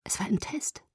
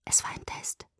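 First: Soft, lightly voiced near-whisper; hushed but more audible realisation; hushed repeat. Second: Very soft, voiceless whisper; hushed, barely voiced. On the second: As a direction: whisper it as a dawning realisation. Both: A narrator's reading. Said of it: "flüsterte ich".

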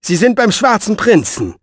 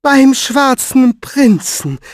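First: High, firm statement, falling at the end; exasperated assertion; emphatic answer. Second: High, loud, slow disbelief; incredulous, stretched-out question; astonished echo. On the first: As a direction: set the record straight. Exasperated answer to her fears. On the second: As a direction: draw out each word in amazement. She echoes the news, astonished. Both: Acted.

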